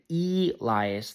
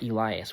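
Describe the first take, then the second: First: The first vowel is hard and drawn out. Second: The first vowel is light and short. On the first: The speaker calls it wrong. "if you go too hard and long on the, if you go too hard on the E, it's weird" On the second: The speaker calls it right. "which is the proper way of saying it"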